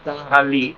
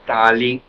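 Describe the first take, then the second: First: The middle h is breathed out audibly. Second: The middle h is silent and not heard. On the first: It follows the Arabic pronunciation. "con H aspirado, si lo decimos con pronunciación árabe" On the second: It follows the Spanish pronunciation. "con H muda, como en nuestro idioma"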